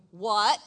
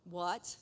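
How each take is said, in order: First: What? blurted much louder with a rising tune; shouted What?. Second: Said in the usual way. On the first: Shown as a demonstration. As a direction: hit What? loud in mock disbelief.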